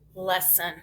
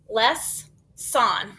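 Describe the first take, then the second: First: The second syllable has a reduced schwa vowel. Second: The second syllable has a full, clear vowel. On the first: The speaker calls it right. "It kind of got lazy. That O is Schwab" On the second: The speaker calls it wrong. "I have never heard that word"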